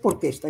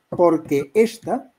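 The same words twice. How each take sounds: First: The vowels of que and esta merge into one syllable. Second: The vowels of que and esta stay separate syllables. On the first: The speaker calls it wrong. "no es porque esta" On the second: The speaker calls it right. "serían cuatro"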